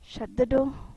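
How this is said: It is said as a piece of advice.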